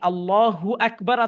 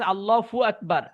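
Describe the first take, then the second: First: The syllable after Allah begins with h. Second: The syllable after Allah begins with f. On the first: The speaker calls it right. "উনি আল্লাহু আকবার আছে না" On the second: The speaker calls it wrong. "হায়ের জায়গায় ফু উচ্চারণ করে ফেলতেছে"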